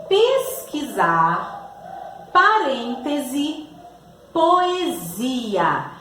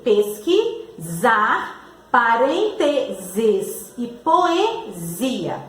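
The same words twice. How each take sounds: First: Slow, measured classroom dictation; teacher sounding out a word list; slow word reading. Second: "Pesquisar, parênteses e poesia" broken before a drawn-out Z sound; slow syllables showing the Z in "Pesquisar, parênteses e poesia". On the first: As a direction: read each example word slowly, drawn out. Teacher reads out example words. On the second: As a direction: split "Pesquisar" as pesqui-ZAR, very slowly, likewise "parênteses" and "poesia". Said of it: "o som dele é do Z". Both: Shown as a demonstration.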